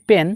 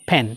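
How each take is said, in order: First: The p has no puff of air. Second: The p has a strong puff of air. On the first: The speaker calls it wrong. "আমরা বলি পেন" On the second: The speaker calls it right. "আজকে থেকে পি কে ফ বলবো"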